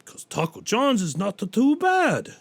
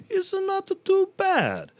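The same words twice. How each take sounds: First: Said in the usual way. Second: Very high, slow squeaky aside; squeaky falsetto. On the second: Pretend. Comic squeaking about Taco John's in falsetto.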